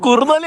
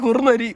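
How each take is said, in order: First: The third consonant is an L sound. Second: The third consonant is an R sound. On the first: The speaker calls it wrong. "കുറുനലി അല്ലടാ" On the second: The speaker calls it right.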